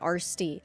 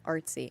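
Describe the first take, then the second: First: The t sound comes after the s. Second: The t sound comes before the s. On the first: The speaker calls it wrong. "I'll read someone's name incorrectly" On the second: The speaker calls it right. "I mean Artsy"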